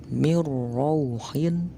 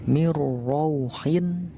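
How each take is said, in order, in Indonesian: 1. Bunyi n menyatu menjadi bunyi r ganda. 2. Bunyi n menyatu menjadi bunyi r ganda.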